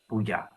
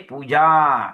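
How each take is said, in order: First: The final a vowel is short. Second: The final a vowel is long. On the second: "then it's completely different lah. Then the A must have the must have a diacritical mark above the A"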